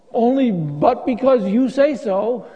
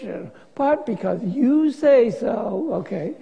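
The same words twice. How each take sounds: First: Slow, earnest and trusting; mean every word of it; sincere trust. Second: Slow, sugary sarcasm trailing off; sarcastic. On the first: Peter humbly agreeing to Jesus, slow and sincere. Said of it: "Jack, I think he's being sarcastic". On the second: Peter sarcastically giving in to Jesus, slow and sugary. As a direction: make clear whose fault it will be. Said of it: "That really makes it really sarcastic". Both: Retold or imitated.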